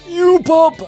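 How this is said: It is said in a put-on elderly voice. The speaker calls it right. "There we go"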